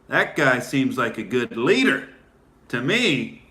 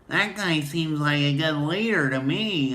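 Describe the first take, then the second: First: It is said in a deep, bassy voice. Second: It is said in a light, thin voice. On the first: The speaker calls it wrong. "You don't say it that with that much bass in your voice" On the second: The speaker calls it right. "You say that"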